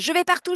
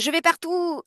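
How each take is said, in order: First: It sounds joyful and carefree. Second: It sounds confused and doubtful.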